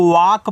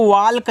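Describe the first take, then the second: First: वाक said "vaak", no L; silent L. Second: वाल्क with the L pronounced, "vaalk"; wrong sounded L. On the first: Teacher showing learners the proper reading, वाक with silent L. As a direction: say walk as वाक, leaving out the L. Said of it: "यल होता है वो होगा silent". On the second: Teacher warning learners off a misreading, वाल्क with audible L. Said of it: "इसको वाल्क नहीं पढ़ना है". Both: Shown as a demonstration.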